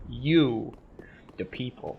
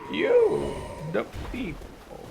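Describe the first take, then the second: First: It is said in the speaker's normal voice. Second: It is said in a put-on character voice.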